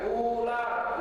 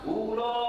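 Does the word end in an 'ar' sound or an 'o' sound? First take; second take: ar; o. First: It is said as ular, ending in ar. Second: It is said as ulo, ending in o. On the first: This is the standard form of the word. The speaker calls it right. "U, L, A, R, ular" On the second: This is how village people said it. The speaker calls it wrong. "Bukan ulo"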